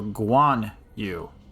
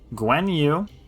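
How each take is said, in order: First: The first syllable sounds like 'gwan'. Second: The first syllable sounds like 'gwen'. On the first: "or Guan Yu" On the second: "It's either Gwen Yu, number one"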